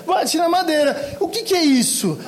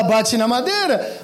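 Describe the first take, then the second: First: Bate na madeira dito mais agudo e rindo; imitando rindo. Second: Said in the usual way. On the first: Retold or imitated. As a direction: repete bate na madeira devagar, entre risos. (bate na madeira imitado com riso) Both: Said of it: "a gente vem imitando todo mundo".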